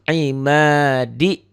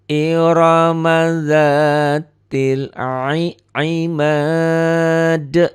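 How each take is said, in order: First: The 'ma' vowel is held for two beats. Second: The 'ma' vowel is held for five beats. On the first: The word runs on into the next one. "Cuma dua ketukan ya. ... Kalau dibaca disambung" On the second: The reading stops on this word. "Tapi kalau dihentikan ini. Ma ini jadi lima ketukan ya"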